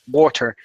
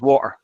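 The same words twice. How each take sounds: First: It is said with every sound fully pronounced. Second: It is said in a Dublin accent, sounds dropped.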